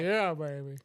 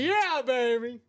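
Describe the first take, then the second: First: It is said quietly with little energy. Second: It is said loudly with lots of energy. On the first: The speaker calls it wrong. "you said it in the most timidest way possible" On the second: The speaker calls it right. "There you go"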